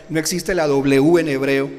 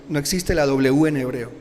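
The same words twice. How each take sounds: The two takes are said the same way.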